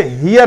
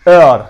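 First: "ہیئر" with the h sounded; wrong pronunciation. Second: "ایئر" with silent h, punched louder; correct pronunciation. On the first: Teacher warning learners about heir, wrong pronunciation. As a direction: say "ہیئر" as hee-yer, breathing the h. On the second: Teacher correcting the reading of heir, correct pronunciation. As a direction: hit "ایئر" firmly, starting on the vowel. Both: Shown as a demonstration. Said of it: "اسے ہیئر نہیں پڑھنا".

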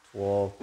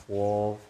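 Both takes have the same delivery.

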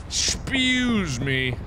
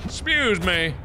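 First: Slow, exaggerated Excuse me; drawn-out excuse me. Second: Said in the usual way. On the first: Shown as a demonstration. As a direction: Excuse stretched out slowly, mock polite.

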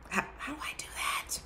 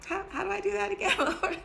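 First: Whispered, fast, hushed question. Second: Much higher, laughing, fast plea; half-laughing disbelief at the Lord. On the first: Real, not acted. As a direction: whisper it as a private aside. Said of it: "repeats question whispered". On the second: Retold or imitated. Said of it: "I was like".

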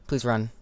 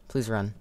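The two takes are said the same way.

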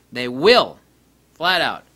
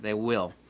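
First: "They will." repeated much louder; emphatic. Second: Said in the usual way. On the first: Shown as a demonstration. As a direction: slam down "They will." as a final word.

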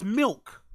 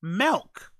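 First: Said in the usual way. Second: "Milk" said as a questioning "melk"; mispronounced milk. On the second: Shown as a demonstration. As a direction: say "Milk" with an eh vowel, rising. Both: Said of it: "Why would you pronounce milk milk".

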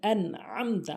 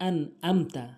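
First: "আনআমতা" with throaty ain; correct pronunciation. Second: "আনআমতা" with plain a, no ain; common mispronunciation. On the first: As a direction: squeeze the middle of "আনআমতা" in the throat. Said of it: "উচ্চারণ হবে এরকম". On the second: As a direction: say "আনআমতা" without the throat sound. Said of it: "আমরা বলি কি". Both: Shown as a demonstration.

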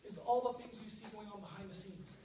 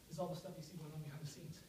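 First: Said in the usual way. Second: Quick and softer, running out of air; out of breath. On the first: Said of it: "Winning by one one-thousandth". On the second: Real, not acted. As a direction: rush it out softly, short of breath. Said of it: "Now I'm out of breath".

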